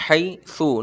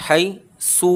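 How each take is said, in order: First: حی سو with a light, gentle س; the right way, سو said softly; teacher modelling the soft سو. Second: حی سو with a hard, heavy س; the wrong way, سو said hard; teacher showing the harsh سو to avoid. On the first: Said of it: "حی سو نرمی سے پڑھنا ہے". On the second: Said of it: "حی سو نہیں پڑھنا". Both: Shown as a demonstration.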